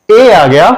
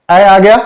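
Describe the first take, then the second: First: ए as a close "ay" as in tape; long A. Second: ऐ as an open "a" as in cat; short A. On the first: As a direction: sound ए as the letter's name. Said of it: "long sound हो गया". (लंबा ए) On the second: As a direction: open the vowel on ऐ. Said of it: "short sound". (छोटा, खुला ऐ) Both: Shown as a demonstration.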